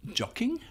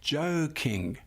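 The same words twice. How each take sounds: First: "jocking" with a short o as in "jock", whispered; wrong pronunciation. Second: "joking" with a long o as in "joke"; correct pronunciation. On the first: Teacher showing the class the wrong reading, "jocking" with a short o. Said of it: "not jocking". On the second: Teacher giving the class the right reading, "joking" with a long o. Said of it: "So we say". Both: Shown as a demonstration.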